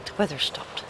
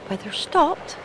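First: Said in the usual way. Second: High, rising disbelief; surprised. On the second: Real, not acted. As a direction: repeat it in disbelief.

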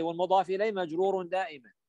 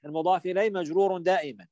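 First: Quick rule recital. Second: Quick rule repeated. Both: Shown as a demonstration. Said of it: "صح؟".

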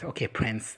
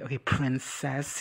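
First: Said in the usual way. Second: "princess" drawn out slowly in a mock quote; mocking princess jibe. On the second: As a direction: stretch out "princess" as a teasing nickname. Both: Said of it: "he basically called him a prince".

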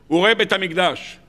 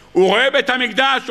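First: Said in the usual way. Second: בית lifted high and louder, rising at the end; emphatic repeat. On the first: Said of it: "repeats with emphasis". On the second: Shown as a demonstration. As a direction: push בית up and let it rise. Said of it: "repeated louder".

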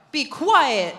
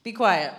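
First: Jesus telling the spirit to hush, sternly; stern command. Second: Said in the usual way. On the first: Shown as a demonstration. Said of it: "said Jesus sternly". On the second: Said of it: "You gotta, the punctuation's there".

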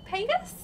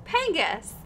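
First: "Pengus" rising like a question; unsure questioning tune. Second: "Pengus" falling at the end; settled falling tune. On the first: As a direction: sound out "Pengus" tentatively, pitch lifting at the end. Unsure reading of a follower's name. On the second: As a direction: say "Pengus" as settled, pitch dropping. Settles on the follower's name. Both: Real, not acted.

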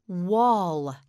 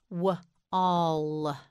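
First: Said in the usual way. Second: W-all split into "wuh" and a long "all"; W-all in two drawn-out parts with a gap; sounded out. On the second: Shown as a demonstration. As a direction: break W-all after the first sound. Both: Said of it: "You say it, say wall".

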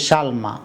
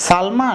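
First: "সালমা" as shalma, with sh; sh pronunciation. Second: "সালমা" as salma, with a plain s; s pronunciation. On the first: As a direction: start "সালমা" on a sh sound. (তালব্য শ দিয়ে "সালমা") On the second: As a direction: start "সালমা" on s, not sh. (দন্ত্য স দিয়ে "সালমা") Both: Shown as a demonstration. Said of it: "এটাকে কি উচ্চারণ করব".

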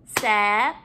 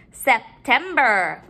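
First: Syllable by syllable. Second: Said in the usual way. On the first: Shown as a demonstration. Teacher counting syllables in the word, broken up. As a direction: pause after each syllable of "September". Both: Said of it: "break up our syllables".

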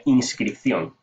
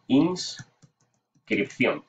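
First: Said in the usual way. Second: Inscripción stretched very slowly, syllable by syllable; Inscripción spoken slowly and carefully; drawn out. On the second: Shown as a demonstration. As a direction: drag out Inscripción while typing it. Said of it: "eh, inscripción".

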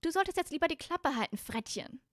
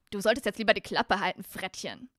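First: High-pitched scolding character voice; high female character. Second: Ron. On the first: High girl's voice tells Malfoy to shut up, scolding. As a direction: tell him off in a raised girlish voice. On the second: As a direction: warn him off loudly, dropping away on the last word. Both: Acted. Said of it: "sorry, das war Ron".

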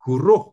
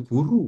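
First: GURUH with a breathed H at the end; final H sounded. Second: GURU ending on an open U; no final H. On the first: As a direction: close GURUH on an audible h sound. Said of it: "bukan guru". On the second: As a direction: leave GURU open, without an h at the end. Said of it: "Guruh, bukan guru". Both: Shown as a demonstration.

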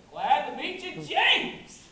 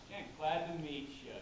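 First: Loud, high, rising welcome; big exuberant hello, climaxing on the name; hearty greeting. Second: Said in the usual way. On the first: Acted. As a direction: boom the greeting out with gusto.

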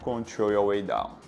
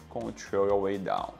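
No difference in how they are said.

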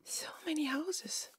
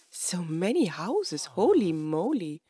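First: Hushed, whispered wonder; awed whisper. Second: Slow, drawn-out wonder; amazed. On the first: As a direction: whisper it in amazement. Awed repeat at the village. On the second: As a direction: marvel slowly at the sight. Marvelling at the village found. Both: Real, not acted.

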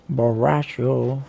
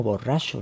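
First: Mock drunk slur. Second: Said in the usual way. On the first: Repeats word as if drunk.

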